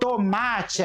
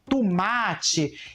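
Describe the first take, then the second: First: The vowels are said as they are spelled. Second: A vowel is changed in the local accent.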